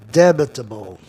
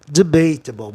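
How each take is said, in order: First: "debatable" stressed on the first syllable; "debatable" with short weak a; mistaken stress. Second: "debatable" stressed on BATE, a as "ay"; "debatable" with a long second vowel; A keeps its sound. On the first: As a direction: say "debatable" as DEB-a-ta-ble. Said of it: "Olha, perdão". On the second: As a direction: say "debatable" as de-BAY-ta-ble. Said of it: "Mantém o A com som de E". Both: Shown as a demonstration.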